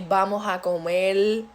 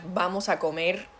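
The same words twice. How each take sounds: First: Comer ends with an L sound. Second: Comer ends with an R sound.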